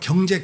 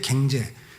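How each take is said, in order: First: The first vowel is the standard 'eo' sound. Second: The first vowel is a Gyeongsang 'ae' sound.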